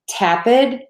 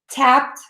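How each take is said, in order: First: The ending is said as an extra syllable. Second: The ending adds no extra syllable. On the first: The speaker calls it wrong. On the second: The speaker calls it right.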